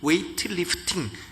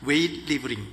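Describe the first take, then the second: First: The second word is said as 'lifting'. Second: The second word is said as 'libling'. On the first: The speaker calls it right. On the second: The speaker calls it wrong.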